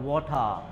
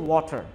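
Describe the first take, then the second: First: It is said in a British accent. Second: It is said in a plain, non-British accent. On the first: "British speaker যারা আছে, তারা ওয়াটার বলে না, তারা ওয়াটার" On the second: "ওয়াটার হচ্ছে যে correct pronunciation"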